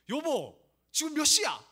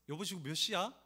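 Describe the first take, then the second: First: The voice is sharp, irritated and forceful. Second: The voice is drowsy, soft and unhurried. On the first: The speaker is upset about being late. "늦어서 화내서" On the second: The speaker is half awake and simply wants the time. "잠결에 몇 시인지 물어보는"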